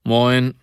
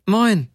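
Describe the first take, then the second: First: Said in the usual way. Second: High, falling "Moin"; higher-pitched greeting. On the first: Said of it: "zwei volle Töne höher". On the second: A narrator's reading. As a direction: echo the greeting well up in pitch. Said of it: "sagte die Frau zwei volle Töne höher".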